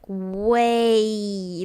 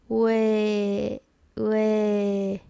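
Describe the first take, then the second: First: WAY drawn out with a strong final A glide; long English WAY, gliding at the end; wrong way, full glide. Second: WAY as steady "weh" with no A at the end; WAY without its closing glide; end glide removed. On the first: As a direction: overdo the A ending of WAY. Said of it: "It's not like way". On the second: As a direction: hold WAY on a pure eh. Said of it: "take off that part". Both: Shown as a demonstration.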